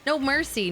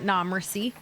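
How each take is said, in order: First: The first word sounds like 'no'. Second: The first word sounds like 'nah'. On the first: The speaker calls it right. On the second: The speaker calls it wrong. "not nah mercy"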